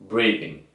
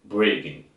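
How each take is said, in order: No difference in how they are said.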